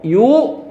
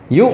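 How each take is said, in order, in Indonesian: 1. Suku katanya dipanjangkan. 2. Suku katanya terputus tiba-tiba. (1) "jangan yuk yuk. Jangan dipanjangkan" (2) "jadi suaranya langsung habis"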